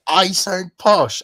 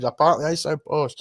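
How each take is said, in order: First: Slow, loud disbelief; incredulous echo. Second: Said in the usual way. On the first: Retold or imitated. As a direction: drag it out, can't believe it. Echoing the posh remark incredulously.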